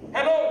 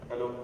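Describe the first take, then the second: First: It sounds cheerful, like greeting a friend. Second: It sounds impatient, like a busy husband.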